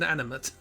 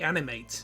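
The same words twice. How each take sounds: First: The last syllable sounds like 'mit'. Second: The last syllable sounds like 'mate'. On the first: It is the adjective, having movement. The speaker calls it wrong. "not the adjective" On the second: It is the verb, to bring to life. The speaker calls it right. "what the verb"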